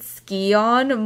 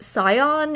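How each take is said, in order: First: The word starts with an S followed by K. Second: The word starts with a plain S sound. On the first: The speaker calls it wrong. "I've pronounced it Scion my whole life" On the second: The speaker calls it right. "it's actually pronounced Scion, you don't pronounce the C in it"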